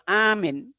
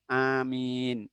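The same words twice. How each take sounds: First: The first vowel is long, the second short. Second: Both the first and second vowels are long. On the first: It means a person who is safe. The speaker calls it wrong. "A-nya panjang, pendek" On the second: It asks God to answer the prayer. The speaker calls it right. "A-nya panjang, min-nya panjang"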